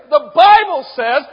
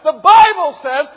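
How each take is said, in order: No difference in how they are said.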